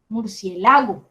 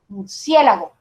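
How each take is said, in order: First: The stress falls on the syllable 'la'. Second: The stress falls on the syllable 'cie'. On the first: The speaker calls it wrong. "eso suena como a un lago" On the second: The speaker calls it right. "Me suena más a como normalmente digo murciélago"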